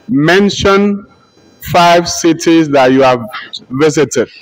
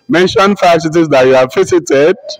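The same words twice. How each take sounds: First: It ends with a falling statement tune. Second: It ends with a rising question tune.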